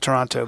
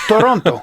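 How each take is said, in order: First: It is said with an English accent. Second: It is said with a Spanish accent. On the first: "otherwise known as" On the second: "I like to pronounce it as, as if I were Spanish"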